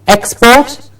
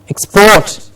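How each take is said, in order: First: The stress is on the first syllable. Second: The stress is on the second syllable. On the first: It names the goods that are sent abroad. "I'll say the word as a noun" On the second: It is the action of sending goods abroad. "to export"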